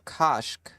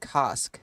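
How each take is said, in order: First: The word ends with a 'shk' sound. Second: The word ends with an 'sk' sound. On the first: The speaker calls it right. "so it's like shk. So Kashk" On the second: The speaker calls it wrong. "I've been saying Kask this whole time"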